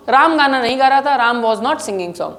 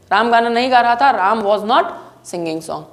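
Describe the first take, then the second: No difference in how they are said.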